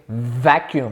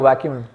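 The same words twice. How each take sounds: First: It begins with a careful, stressed V sound. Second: It begins with a W-like sound. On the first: "I have to think vacuum. I have to put emphasis in" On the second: "Otherwise, I'll be like, yo, vacuum"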